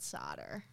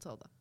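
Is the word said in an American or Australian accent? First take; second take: American; Australian. First: It is said in an American accent. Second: It is said in an Australian accent. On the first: "Or if you're American, it's called solder" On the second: "It's called solder"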